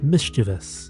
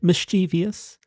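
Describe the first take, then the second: First: The word has three syllables, ending in -vous. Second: The word has four syllables, ending in -vious. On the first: The speaker calls it right. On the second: The speaker calls it wrong.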